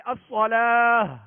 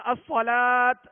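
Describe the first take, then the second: First: "الصلاۃ" as as-salaah, slow and loud, ending in h; ha stop. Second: "الصلاۃ" as as-salaat, slow and loud, closed on t; ta stop. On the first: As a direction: hold the long aa of "الصلاۃ" and release into h. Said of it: "آخر میں ہا کی آواز نکالیں گے". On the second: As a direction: hold the long aa of "الصلاۃ", then stop on t. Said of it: "تا پڑھ کے نہیں". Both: Shown as a demonstration.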